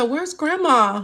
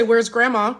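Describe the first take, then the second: First: Slow, higher little boy's attempt at "Where's Grandma?"; imitating little grandson. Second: Said in the usual way. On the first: Grandmother telling viewers how her grandson asked for Grandma. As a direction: drag out "Where's Grandma?" like a small child would. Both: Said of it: "He tried to say".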